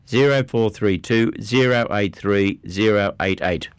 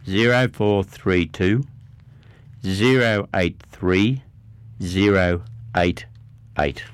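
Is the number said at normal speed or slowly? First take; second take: normal speed; slowly. First: The number is said at normal speed. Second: The number is said slowly.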